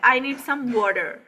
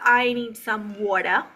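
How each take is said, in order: First: It is spoken in an American accent. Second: It is spoken in a British accent. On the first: "ये American style है" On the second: "British इसे कहेगा ... वो वाटर पूरा नहीं बोलेगा"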